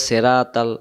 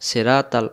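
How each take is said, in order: The two takes are said the same way.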